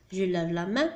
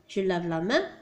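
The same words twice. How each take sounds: The two takes are said the same way.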